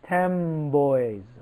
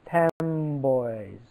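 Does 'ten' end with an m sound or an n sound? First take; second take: m; m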